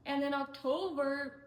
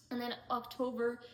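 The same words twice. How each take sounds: First: Breathy whisper of the opening words; a whisper before she starts over. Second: Said in the usual way. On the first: Real, not acted. Narrating her job story, she whispers the opening. Restarts the October part of story.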